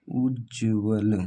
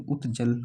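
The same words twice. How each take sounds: First: उज्ज्वल with a doubled j, said slowly; correct Hindi pronunciation. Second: उत्जल with a t before the j; उत्जल with a t sound before the j; wrong Hindi pronunciation. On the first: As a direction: draw out उज्ज्वल with a long jj. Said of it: "आधा जा, फिर जा". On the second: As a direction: say उत्जल with t and j apart. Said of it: "ये भी नहीं होता". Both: Shown as a demonstration.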